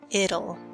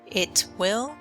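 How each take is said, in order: First: It is said as one contracted word. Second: It is said as two full words.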